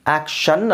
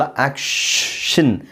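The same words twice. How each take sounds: First: ಆಕ್ಷನ್ with a long held n; wrong way. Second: ಆಕ್ಷನ್ very slowly with a stretched first aa; slow correct take. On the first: Teacher showing the wrong ಆಕ್ಷನ್. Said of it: "ಆಕ್ಷನ್ ಅಲ್ಲ". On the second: Teacher modelling the right ಆಕ್ಷನ್ slowly. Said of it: "ಶಿನ್". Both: Shown as a demonstration.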